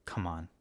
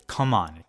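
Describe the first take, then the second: First: Low murmured plea, almost to himself; quiet hopeful come on under the breath. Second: Louder cheer, pushing for it; louder come on. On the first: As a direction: mutter it softly, hoping. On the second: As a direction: say it out loud like rooting for a team. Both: Real, not acted. Hopeful cheer for a favorite nominee.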